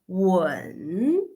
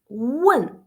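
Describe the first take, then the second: First: It is said with the third tone. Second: It is said with a tone other than third. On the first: It means to kiss. "if we pronounce the third tone" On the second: It means to ask. "that means to ask"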